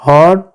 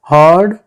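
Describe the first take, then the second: No difference in how they are said.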